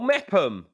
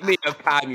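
First: The name has a short vowel and a p sound. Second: The name has a long vowel and an f sound. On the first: The speaker calls it right. "Oh, Meppam" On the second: The speaker calls it wrong. "I don't know the exact pronunciation of every place in Kent"

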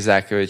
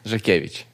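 First: The surname gets an Americanized pronunciation. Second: The surname gets its original, older pronunciation. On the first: This is how the family says it in America. "We're in America, so we say Zakovich" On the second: This is the old way the name was said. "The ancient way of saying it?"

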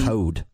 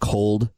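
First: The L sound is dropped entirely. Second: The L sound is clearly pronounced. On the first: "it's code" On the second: "Instead of cold"

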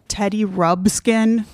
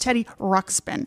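First: The surname is said as Rubskin. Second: The surname is said as Ruxpin. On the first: The speaker calls it wrong. "until about 5 years ago, I pronounced it Teddy Rubskin" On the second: The speaker calls it right. "Okay, that's... Teddy Ruxpin"

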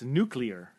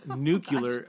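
First: The middle is said like 'nu-clee-ar'. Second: The middle is said like 'nu-cu-lar'. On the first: The speaker calls it right. "It's nuclear" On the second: The speaker calls it wrong. "The other day I said nuclear"

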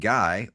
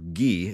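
First: The name is said the usual way. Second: The name is said the Canadian way.

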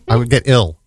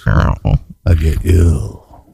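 First: It is said in a normal voice. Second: It is said in a low voice.

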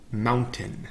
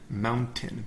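Both takes have the same delivery.

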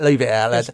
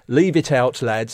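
First: It is said with a Cockney accent. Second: It is said flatly, without a Cockney accent.

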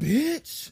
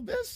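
First: The word is said loudly and pointedly. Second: The word is said quietly and slurred over. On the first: It sounds like a real insult. The speaker calls it wrong. "And do it like that" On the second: It sounds like a playful joke. The speaker calls it right. "You can barely hear it"

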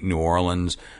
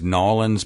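First: The name is said out in full, word by word. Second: The name is squeezed into a short, reduced form. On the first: This is how an outsider says it. "So I say New Orleans" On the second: This is how locals say it. "I think it's Nolens"

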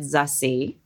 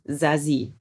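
First: The name is pronounced in a German way. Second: The name is pronounced in a French way. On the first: This is how the German dub said the name. "my dad, who is German, watched the dubbed movie... and they said Zazie" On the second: This is how the name is said in France. "if you're in France, you would say Zazie"

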